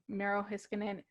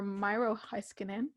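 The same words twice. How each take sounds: First: "Miro Heiskanen" as "MEH-ro HISS-kanen"; short vowels in both names of "Miro Heiskanen"; first pronunciation attempt. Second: "Miro Heiskanen" as "MY-ro HICE-kanen"; long "eye" vowel in both names of "Miro Heiskanen"; alternative pronunciation attempt. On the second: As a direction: say "Miro" to rhyme with "Cairo". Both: Shown as a demonstration. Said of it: "not very good with names".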